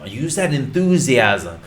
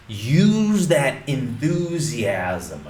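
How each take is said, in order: First: Said in the usual way. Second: Slow emphatic. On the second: Shown as a demonstration.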